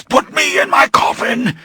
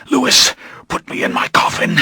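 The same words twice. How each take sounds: First: High, straining shout; hoarse cry. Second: Breathless whispered plea; pleading whisper. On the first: Dying vampire shouts his plea to Louis. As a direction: force it out as a cry. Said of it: "His voice was hoarse". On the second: Dying vampire whispers his plea to Louis. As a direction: beg it under your breath. Poisoned Lestat begs, then shouts. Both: Acted.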